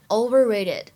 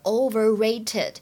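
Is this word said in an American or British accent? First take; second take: American; British. First: The middle t is voiced, close to d. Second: The middle t is a clear, crisp t. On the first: "美音当中呢会读成overrated" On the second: "如果读英式的话就是overrated"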